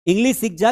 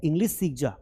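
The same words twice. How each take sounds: First: "English सीख जा" repeated louder, pressing the point; urging louder. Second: Said in the usual way. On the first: Retold or imitated. Teacher voicing what to tell the phone-addicted sister, louder and urging. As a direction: push it like nudging a lazy sibling. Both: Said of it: "उसको बोलो कि".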